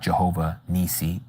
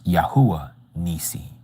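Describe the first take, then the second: First: The name begins with a J sound. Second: The name begins with a Y sound. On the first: The speaker calls it wrong. "The real pronunciation is not Jehovah Nisi" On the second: The speaker calls it right. "it's Yahuwah Nisi"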